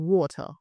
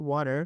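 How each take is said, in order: First: "water" as waw-tah, crisp t; British water. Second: "water" as wah-der, tapped t; American water. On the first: Teacher giving an example, British water as waw-tah. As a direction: say "water" with round aw, no r. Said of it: "and in British it's". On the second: Teacher giving an example, American water as wah-der. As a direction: soften the t in "water" to a tap. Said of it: "suppose আমেরিকানে". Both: Shown as a demonstration.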